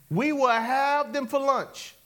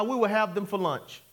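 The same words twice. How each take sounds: First: "We will have them for lunch" drawn out, pitched up; slow, emphatic. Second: Said in the usual way. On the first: Acted. Preacher repeating Caleb's bold words to the church, "We will have them for lunch" slow and emphatic.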